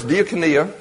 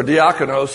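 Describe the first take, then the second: First: Diakonia said as dee-ah-ko-NEE-a; Greek pronunciation. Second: Diakonos said as dee-AH-ko-nos; alternative Greek pronunciation. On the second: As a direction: give diakonos as the other Greek form, ending in -nos. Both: Shown as a demonstration. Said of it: "That's another way to pronounce it".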